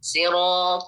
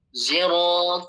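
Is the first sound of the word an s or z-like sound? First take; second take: s sound; z-like sound. First: The first consonant is a plain s sound. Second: The first consonant is blended toward a z sound. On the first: This is one reciter's reading. "Kita baca pakai sin ya" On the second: This is another reciter's reading. "Kita baca pakai Zai ya"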